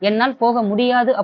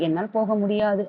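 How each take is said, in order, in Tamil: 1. உரக்கவும் வலுவாகவும் சொல்லப்படுகிறது. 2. மெதுவாகவும் மென்மையாகவும் சொல்லப்படுகிறது. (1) "ஓங்கி ஒலிக்கும்போது மறுப்பை உணர்த்துகிறது" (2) "ஒரு பொலைட்டா ஒரு மெல்லமா சொல்லும்போது"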